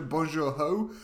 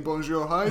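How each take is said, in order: First: Bonjour, ho said lightly with the ho rising; French-only greeting. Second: Bonjour, hi said lightly as a French-English greeting; bilingual greeting. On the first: Shopkeeper told to drop the English, saying it with a rise. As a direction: swap hi for a French ho, Bonjour, ho, with a lifted end. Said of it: "to change it to". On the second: Shopkeeper greeting customers in both languages, light rising tone. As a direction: give the mixed shopkeeper welcome, Bonjour, hi, with a small rise. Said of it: "persuade shopkeepers to stop saying". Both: Retold or imitated.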